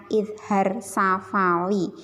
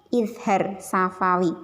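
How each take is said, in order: No difference in how they are said.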